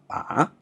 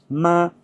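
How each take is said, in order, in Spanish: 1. El tono baja hasta bajo y luego vuelve a subir. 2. El tono se mantiene alto y plano. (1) "el tono que baja y sube" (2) "tono alto"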